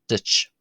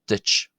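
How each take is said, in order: The two takes are said the same way.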